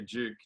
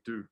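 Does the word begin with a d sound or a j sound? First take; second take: j sound; d sound. First: The word begins with a j-like sound. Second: The word begins with a plain d sound. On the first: The speaker calls it right. "We have to teach the Americans to say Duke" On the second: The speaker calls it wrong. "They say Duke"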